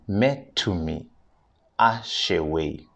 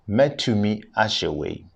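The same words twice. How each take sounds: First: It is said slowly. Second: It is said at normal speed.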